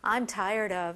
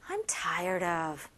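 First: It is said flatly, without emotion. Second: It is said with strong emotion.

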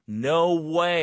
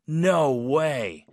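First: It sounds thrilled and excited. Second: It sounds doubtful and disbelieving.

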